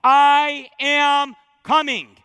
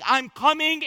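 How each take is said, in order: First: Slow, loud, ringing proclamation; emphatic declaration. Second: Said in the usual way. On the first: Acted. Preacher booming Jesus's promise to the congregation, slow and loud. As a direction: proclaim every word as a promise. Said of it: "Three times in the epilogue".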